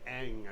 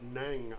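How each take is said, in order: First: The syllable begins with a vowel sound. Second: The syllable begins with an N sound. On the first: The speaker calls it wrong. "I thought it was" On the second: The speaker calls it right. "I did not realize that the N G was uh"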